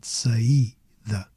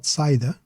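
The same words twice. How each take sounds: First: "saída" as sa-EE, then da; correct hiatus version. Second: "saída" as SIGH-da, two syllables; wrong diphthong version. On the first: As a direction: split a from a stressed i in "saída". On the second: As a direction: merge a and i in "saída", stress on a. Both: Shown as a demonstration. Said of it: "Not saída, but saída".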